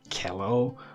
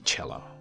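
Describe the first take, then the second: First: The word is pronounced in a non-Italian way. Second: The word is pronounced the Italian way. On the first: The speaker calls it wrong. "Not cello or cello or whatever, because cello is also mispronounced all the time" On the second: The speaker calls it right. "Please say cello, right? Just like Italian"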